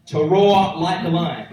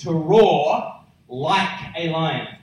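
First: To roar like a lion, punched louder; louder repeat. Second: To roar like a lion, drawn out slow; slow emphatic roar. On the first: Preacher repeating the meaning to the congregation, louder. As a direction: push "roar" out louder the second time. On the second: Preacher spelling out the meaning to the congregation, slow and emphatic. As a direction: stretch out every word of "to roar like a lion". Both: Shown as a demonstration. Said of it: "And it means this".

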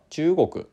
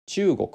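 First: 中国 read in Keihan-style accent, pitch accent on the long ちゅう; 中国 with a Kyoto-Osaka pitch pattern. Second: 中国 read in Tokyo-style pitch accent, first syllable high; 中国 with the standard Tokyo accent. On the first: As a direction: say 中国 the Kansai way, leaning on the long vowel. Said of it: "京阪式で読むんだったら". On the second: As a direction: say 中国 the standard Tokyo way, pitch falling after ちゅう. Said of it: "まずは東京式で読みますか". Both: Shown as a demonstration.

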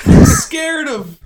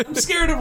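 First: Drawn-out high quavering fear; slow, overplayed frightened wail; mock scared. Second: Said in the usual way.

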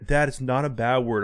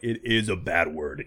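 First: Said in the usual way. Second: Lower, slow, stretched "is"; stress on IS. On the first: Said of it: "He's like". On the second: Retold or imitated. Dad correcting his son, firm stress on "is". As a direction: contradict him by leaning slowly on "is", pitched down. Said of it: "I'm like".

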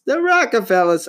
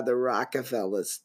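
First: High, louder mock-posh delivery; put-on high voice. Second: Said in the usual way. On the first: Shown as a demonstration. Podcaster dreaming of rich family, high mock voice. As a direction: say it lifted and grand. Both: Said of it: "I've been talking like that all night".

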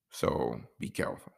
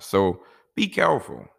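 First: Whispered, soft and low: "So be careful"; hushed warning. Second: Said in the usual way. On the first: Real, not acted. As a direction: lean in and breathe "So be careful" as a secret warning. Warning single fellas about setups.

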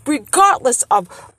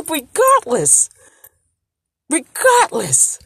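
First: Said in the usual way. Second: Regardless, high and drawn out slowly; emphatic regardless. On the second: Real, not acted. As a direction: lean hard on regardless, slowly.

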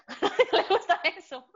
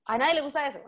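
First: High, laughing repeat. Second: Said with a light laugh; chuckling. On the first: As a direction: break into a laugh and squeal it up. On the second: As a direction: laugh a little as you say it. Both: Real, not acted.

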